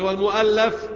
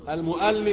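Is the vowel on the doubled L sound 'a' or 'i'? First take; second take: a; i. First: The doubled L is followed by an a vowel. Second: The doubled L is followed by an i vowel. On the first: The book that was written. "والمؤلف بالفتح اسم الايه المفعول" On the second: The one who wrote the book. "المؤلف بالكسر اسم الايه، اسم الفاعل"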